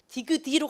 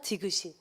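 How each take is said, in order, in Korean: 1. 받침이 그대로 넘어간다. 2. 받침이 다른 소리로 바뀌어 넘어간다. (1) "디귿이로 가야 되는데 너무 이상하니까" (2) "이런 식으로 간다"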